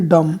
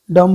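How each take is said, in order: First: "डम" ending cleanly on m; silent B. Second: "डम" with a b sounded after the m. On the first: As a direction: leave the b silent in "डम". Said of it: "डम नहीं बोलते". ("डम" में ब silent, अंत म पर) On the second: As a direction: voice the final b in "डम". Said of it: "नहीं जो बोला जाएगा". ("डम" के अंत में ब की आवाज़) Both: Shown as a demonstration.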